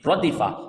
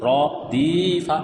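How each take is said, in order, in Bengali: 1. শব্দটি এক সাথে তাড়াতাড়ি বলা হয়। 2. শব্দটি ধীরে টেনে আর ভেঙে ভেঙে বলা হয়। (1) "তিনটি তাড়াতাড়ি উচ্চারণে পড়তে হবে" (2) "কেউ যদি র দিফা এরকম পড়ে তাহলে তার পড়াটা যেহেতু ভুল হলো"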